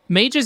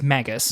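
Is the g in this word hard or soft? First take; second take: soft; hard. First: The g is pronounced soft. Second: The g is pronounced hard. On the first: This is the everyday way to say the word. "how you or I would say it as a word" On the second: This is how the film pronounces the word. "How they say it exclusively in the movie"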